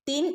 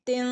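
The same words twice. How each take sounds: First: The final n is pronounced fully and clearly. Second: The final n is hidden with a nasal hum. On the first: The speaker calls it wrong. "തിൻ എന്ന് ഓതാതെ" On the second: The speaker calls it right. "ഇഖ്ഫ ചെയ്ത് മറച്ച് മണിച്ചോതുക"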